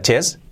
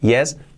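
First: The word begins with a ch sound. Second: The word begins with a y sound. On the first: The speaker calls it wrong. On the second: The speaker calls it right.

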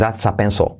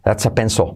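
First: The final L is very soft. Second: The same.

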